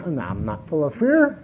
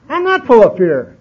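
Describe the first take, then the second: First: Said in the usual way. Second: Pushed up high and louder on the repeat; louder insistence. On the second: Retold or imitated. Protesting to the old timers, louder and higher.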